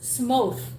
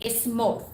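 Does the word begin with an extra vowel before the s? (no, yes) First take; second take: no; yes. First: The word begins directly with an s sound. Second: The word begins with an e sound before s. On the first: The speaker calls it right. "is only S, like s- s- smooth" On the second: The speaker calls it wrong. "if you say smooth, it's just like there is E on the start"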